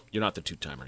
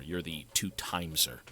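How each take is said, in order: First: Said in the usual way. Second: "two-timeser" with an extra z sound before the final -er; altered word ending. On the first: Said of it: "don't say that". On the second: Shown as a demonstration. Streamer correcting a nickname, "two-timeser" said with an added z.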